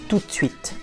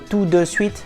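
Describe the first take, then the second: First: The vowel in 'de' is dropped. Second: The vowel in 'de' is fully pronounced.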